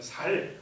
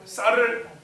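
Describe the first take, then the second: First: The first consonant is a plain, soft s. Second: The first consonant is a tense, strong s. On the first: The speaker calls it wrong. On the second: The speaker calls it right.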